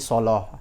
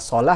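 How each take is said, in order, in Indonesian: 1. Bunyi L itu tebal dan berat. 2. Bunyi L itu tipis dan ringan.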